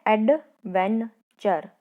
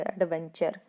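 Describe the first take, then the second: First: adventure slowly broken into एड, वेन, चर; split into syllables. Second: Said in the usual way. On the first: Shown as a demonstration. Teacher showing children three syllables, adventure said part by part. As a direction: say एड, वेन, चर with gaps between. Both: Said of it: "तीनों में आपके lips के shape अलग हैं".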